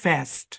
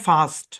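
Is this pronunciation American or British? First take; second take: American; British. First: It uses a flat 'a' vowel. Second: It uses a broad 'ah' vowel. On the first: "American ইংলিশে এই শব্দকে উচ্চারণ করা হয়" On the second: "British ইংলিশে এই শব্দটাকে উচ্চারণ করা হয়"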